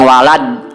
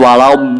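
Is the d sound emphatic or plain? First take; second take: plain; emphatic. First: The d sound is a plain, light d. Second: The d sound is a heavy, emphatic d. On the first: The speaker calls it wrong. "banyak yang walad" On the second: The speaker calls it right. "tapi yang betul walad"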